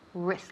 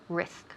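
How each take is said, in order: First: The r sound is soft and relaxed. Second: The r sound is soft and relaxed.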